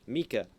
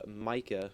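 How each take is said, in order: First: The first vowel is an 'ee' sound. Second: The first vowel is not an 'ee' sound. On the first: The speaker calls it right. "say it with an E E K A" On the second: The speaker calls it wrong. "I said it wrong"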